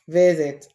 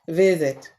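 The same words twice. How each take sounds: First: The s is said as a buzzing z sound. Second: The s is said as a buzzing z sound.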